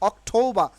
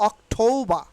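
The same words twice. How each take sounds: The two takes are said the same way.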